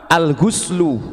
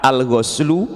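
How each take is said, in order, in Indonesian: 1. Vokal setelah 'gh' adalah bunyi 'u'. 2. Vokal setelah 'gh' adalah bunyi 'a'. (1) "bisa dibaca dhammah" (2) "bisa dibaca fathah"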